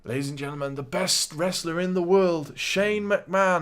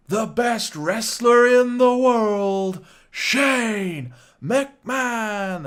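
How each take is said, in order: First: Announcer voice. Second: Loud, high, very slow drawn-out announcer call; booming wrestling ring announcer introduction; proper ring announcer intro. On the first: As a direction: lift it into a proper ring intro. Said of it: "And he goes". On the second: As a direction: stretch every word like a big arena intro. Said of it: "he does a proper Greg Hamilton, uh, intro". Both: Retold or imitated.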